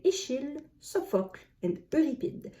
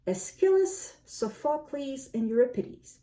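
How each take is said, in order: First: Aeschylus as French Eschyle, Euripide with French vowels; French pronunciation. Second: Aeschylus, Sophocles, Euripides in English; English pronunciation. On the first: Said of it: "In French, I would say". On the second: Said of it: "I believe they are pronounced". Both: Shown as a demonstration.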